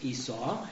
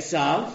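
First: The name has its usual English pronunciation. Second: The name has its Hebrew pronunciation. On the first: "which I've always heard pronounced Esau" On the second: "The Hebrew is not Esau. It's"

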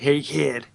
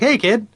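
First: It sounds shady and creepily alluring. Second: It sounds bright, happy and inviting.

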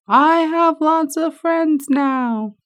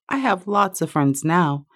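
First: It is said very loudly. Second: It is said at a normal, quieter volume.

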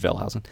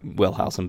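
First: The name begins with a German V sound. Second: The name begins with an English W sound. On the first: This is how the German owner of the name would say it. "I think he would have preferred Wellhausen" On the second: This is how Americans say it. "here in America, we say Wellhausen"

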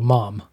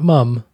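First: The vowel is the American open o sound. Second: The vowel is the British short u sound. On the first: The speaker calls it right. "say mom just for the proper American expression" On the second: The speaker calls it wrong. "Not mum"

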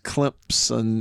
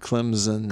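First: A P sound slips in after the M. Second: No P sound comes after the M. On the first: The speaker calls it wrong. "It was coming across as" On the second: The speaker calls it right. "as opposed to"

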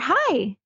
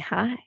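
First: It sounds like greeting someone at the door. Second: It sounds a little sexy and flirtatious.

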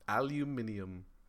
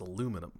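First: It is said the British way, with an extra syllable. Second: It is said the American way, without the extra syllable. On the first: The speaker calls it wrong. "the British like to either take away or add syllables" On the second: The speaker calls it right. "No, it's aluminum"

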